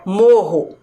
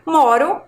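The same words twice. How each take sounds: First: Morro with a strong H-like RR. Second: Moro with a light tapped R; weak R. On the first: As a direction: push the double R in morro. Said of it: "quando a gente pronuncia forte". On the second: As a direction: clear moro, R as a quick tap. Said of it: "como fica diferente a pronúncia". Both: Shown as a demonstration.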